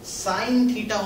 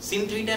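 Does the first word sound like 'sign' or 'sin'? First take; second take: sign; sin. First: The first word has a long 'ai' vowel. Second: The first word has a short 'i' vowel. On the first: The speaker calls it right. "साइन theta होता है" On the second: The speaker calls it wrong. "सिन theta नहीं होता है"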